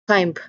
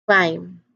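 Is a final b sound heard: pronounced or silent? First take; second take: pronounced; silent. First: A b sound is heard at the end. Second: No b sound is heard at the end. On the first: The speaker calls it wrong. "We do not pronounce this word as climb" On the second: The speaker calls it right. "We usually just say it as climb"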